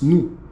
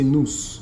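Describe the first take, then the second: First: The final S sound is silent. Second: The final S sound is pronounced. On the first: The speaker calls it right. "but it's nous, because the S is silent" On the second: The speaker calls it wrong. "They say nous"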